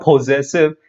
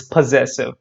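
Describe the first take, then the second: First: "possessive" opened with a clear round "poh"; full O in the first syllable of "possessive"; mispronunciation. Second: "possessive" with a reduced "puh" first syllable; weak schwa opening "possessive", stress on ZESS; correct pronunciation. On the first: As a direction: say "possessive" wrongly as poh-ZESS-iv. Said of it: "It's not possessive". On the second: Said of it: "it's possessive". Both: Shown as a demonstration.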